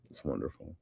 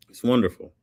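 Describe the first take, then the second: First: Low, soft "It's wonderful"; quiet aside. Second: "It's wonderful" lifted up, falling at the end; raised pitch with a closing fall; emphatic repeat. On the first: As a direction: say it softly and low, almost to yourself. Repeats own praise, first softly. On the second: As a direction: say it clearly, higher, landing downward. Repeats own praise, then louder. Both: Real, not acted.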